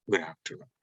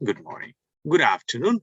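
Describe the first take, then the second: First: Lower, softer falling reply. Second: Rising greeting. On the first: Teacher shows the soft falling reply. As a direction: answer quietly, falling. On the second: Teacher shows how to give the greeting, rising. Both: Shown as a demonstration. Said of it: "পার্থক্যটা হচ্ছে tone দিয়ে".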